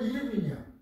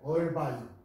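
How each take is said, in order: First: It is read letter by letter, ending 'bin'. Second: It starts 'er' and ends with 'vine'. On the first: This is how a Spanish reading would sound. The speaker calls it wrong. "스페니쉬로 하면 이르빈이야" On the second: This is how it should be read. The speaker calls it right. "얼바인이라고 읽어야 해요"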